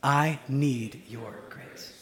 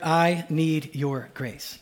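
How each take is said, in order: First: Very slow, dropping softer on the repeat; a quieter second take for all to echo; slower and softer. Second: Very slow, leading the phrase word by word; slow demonstration. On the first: Preacher repeating the phrase softly for the congregation. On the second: Preacher leading the congregation, saying the phrase slowly. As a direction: model the line for them to repeat. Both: Shown as a demonstration. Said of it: "I just want us to say together".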